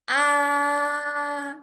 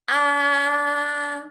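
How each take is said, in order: First: The pitch stays high and level throughout. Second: The pitch stays high and level throughout.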